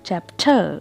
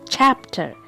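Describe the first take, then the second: First: The stress is on the second syllable. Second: The stress is on the first syllable. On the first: The speaker calls it wrong. "this will be wrong pronunciation" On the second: The speaker calls it right. "Here I am giving a stress on the first syllable"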